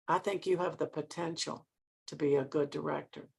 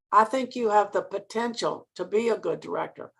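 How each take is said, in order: First: Much softer and lower; quiet, pointed repetition. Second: Measured emphasis on "potential"; stress on potential. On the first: Mentor repeating her verdict to director, quiet and pointed. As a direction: drop right down to let it sink in. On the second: Mentor repeating her appraisal, stressing "potential". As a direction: lean lightly on "potential", usual volume. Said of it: "she stressed the word potential". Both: Retold or imitated.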